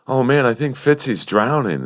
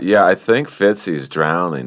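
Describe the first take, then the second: First: It is said in a sad, worried tone. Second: It is said in an uncaring, indifferent tone.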